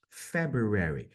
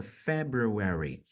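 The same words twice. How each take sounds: First: Slow "February" repeated as a model; careful repeat. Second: Slow "February", every syllable shaped; careful pronunciation. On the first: Teacher repeats the month slowly for students. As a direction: say "February" once more, slowly. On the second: Teacher highlights the pronunciation of a month name. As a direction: spell out "February" for learners. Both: Shown as a demonstration. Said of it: "Olha a pronúncia".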